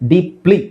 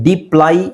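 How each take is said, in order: First: The word ends with an 'ee' sound. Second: The word ends with an 'eye' sound. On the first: The speaker calls it right. "ಈ ಥರ ಹೇಳ್ತೀವಿ" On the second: The speaker calls it wrong. "ಡೀಪ್ಲೈ ಅಂತ ಹೇಳಲ್ಲ"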